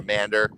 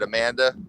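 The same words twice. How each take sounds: First: The name is said in a local accent. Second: The name is said in a standard accent.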